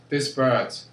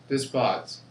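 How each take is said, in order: No difference in how they are said.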